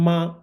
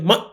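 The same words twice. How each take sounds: First: The word ends open, with no hard catch. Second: The word ends with a hard, pushed catch. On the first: The speaker calls it wrong. "আপনি যদি স্বাভাবিকভাবে বলেন" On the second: The speaker calls it right. "শক্ত করে ধাক্কা দিয়ে পড়তে হবে"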